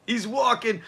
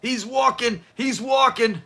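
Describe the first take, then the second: First: Said in the usual way. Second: Higher, imitated catchphrase "He's walking"; quoting mom's favorite line. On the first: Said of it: "when I bring this episode up". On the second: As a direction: sing out "He's walking" like the show does. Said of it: "She loved that line".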